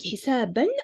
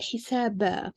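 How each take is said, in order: First: The word ends with an n sound. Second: The word ends on a long a vowel. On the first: The speaker calls it wrong. "instead of pronouncing hisaban" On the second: The speaker calls it right. "I need to say it hisaba"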